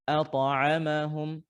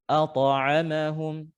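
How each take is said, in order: The two takes are said the same way.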